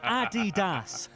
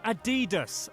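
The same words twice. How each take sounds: First: It is said with a German pronunciation. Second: It is said with an American pronunciation. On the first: The speaker calls it right. "is why the company is called Adidas" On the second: The speaker calls it wrong. "not Adidas America"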